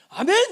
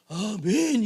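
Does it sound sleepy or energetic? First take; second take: energetic; sleepy. First: It is said in an energetic, lively way. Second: It is said in a sleepy, drowsy way.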